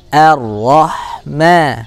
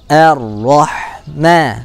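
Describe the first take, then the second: First: The first vowel is light and spread. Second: The first vowel is light and spread.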